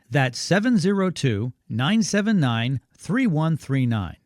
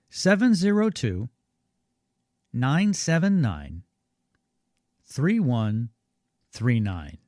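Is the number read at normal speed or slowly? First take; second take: normal; slowly. First: The number is read at normal speed. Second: The number is read more slowly.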